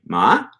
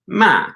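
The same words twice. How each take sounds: First: Ma said with a contrasting tone; a different tone on ma; tone demo. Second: Ma said with a rising tone; tone demo. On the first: Teacher contrasts a second Mandarin tone on ma. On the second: Teacher demonstrates a Mandarin tone on ma. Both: Shown as a demonstration. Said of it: "means something different than if you say".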